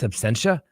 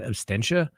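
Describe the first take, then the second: First: No t sound follows the s. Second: A t sound follows the s. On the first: The speaker calls it right. "it's absentia" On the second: The speaker calls it wrong. "Some people said I said abstentia"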